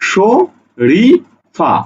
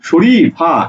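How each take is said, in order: First: The word is split into three chunks. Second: The word is split into two chunks. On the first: The speaker calls it right. "এভাবে উচ্চারণ করতে হবে" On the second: The speaker calls it wrong. "Sorry যোগ ফা, sorry ফা, এভাবে না"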